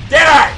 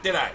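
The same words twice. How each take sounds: First: Same words, higher and louder, pressing the point; loud repeat. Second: Said in the usual way. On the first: Real, not acted. Gamer repeating at a teammate, louder and insistent. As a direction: hit it harder the second time.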